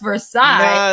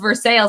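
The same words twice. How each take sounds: First: It is pronounced the French way. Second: It is pronounced the local Kentucky way. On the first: This is how the French palace's name is said. The speaker calls it right. "No, it's Versailles" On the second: This is how the Kentucky town's name is said locally. The speaker calls it wrong. "they say it wrong"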